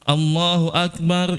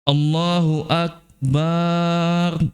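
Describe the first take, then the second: First: No vowel is drawn out. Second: The a after b is drawn out. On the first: Allah is the greatest. The speaker calls it right. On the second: Allah is a drum. The speaker calls it wrong. "banyak yang dipanjang bukan hamzah"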